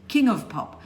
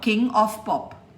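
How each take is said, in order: First: The word 'of' is reduced to a weak 'uv'. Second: The word 'of' is said in its full form. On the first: The speaker calls it right. "But of is not spoken as of, but of. Uv" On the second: The speaker calls it wrong. "not King of Pop"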